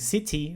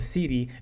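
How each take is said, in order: First: The middle consonant is a clear T. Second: The middle consonant is a quick flap.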